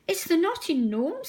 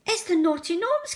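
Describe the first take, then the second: First: Higher, a touch nervous. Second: High, terrified cry; scared cry. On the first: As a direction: say it timidly to the Fat Controller. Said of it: "said Percy nervously". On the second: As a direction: cry out at the spilled gnomes. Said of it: "cried Percy". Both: Acted.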